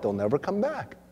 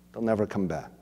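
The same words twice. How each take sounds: First: Said in the usual way. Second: Quieter, lower repeat. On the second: Shown as a demonstration.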